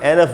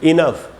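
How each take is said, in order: First: The first vowel is an 'e' sound. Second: The first vowel is an 'i' sound. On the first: "इनफ का एक उच्चारण एनफ भी होता है" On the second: "और फिर है इनफ"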